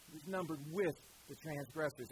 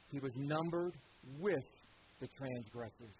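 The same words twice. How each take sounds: First: Said in the usual way. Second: He was numbered, with, the transgressors broken by pauses, fading softer at the end; slow deliberate phrasing. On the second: Shown as a demonstration. Preacher quoting Isaiah to the church, paused and deliberate. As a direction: space out numbered, with, transgressors, each set apart. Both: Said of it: "quietly, deliberately".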